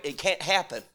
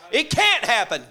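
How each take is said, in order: First: Said in the usual way. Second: Louder, higher, can't punched; emphatic declaration. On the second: Acted. Elijah proclaiming to the crowd, loud emphatic declaration. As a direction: proclaim it with full force.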